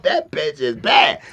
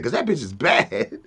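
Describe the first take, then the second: First: Drawn-out shout of approval; impressed friend hollering it slowly; slow loud admiration. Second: Said in the usual way. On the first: Retold or imitated. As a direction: stretch every word and call it out loud. Pac admiring the masseuse.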